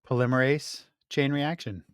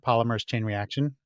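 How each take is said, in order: First: The first word has four syllables, ending in -ase. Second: The first word has three syllables, ending in -mers. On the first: The speaker calls it right. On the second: The speaker calls it wrong.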